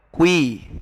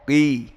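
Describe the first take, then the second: First: It is said with rounded lips, like kui. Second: It is said with unrounded lips. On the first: The speaker calls it wrong. "bukan pangkal lidahnya yang uh, berpengaruh, tapi bibirnya" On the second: The speaker calls it right. "Ko dengan mengangkat pangkal lidah"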